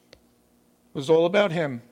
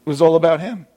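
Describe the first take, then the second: First: Said in the usual way. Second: Louder. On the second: Acted. Preacher driving home his point.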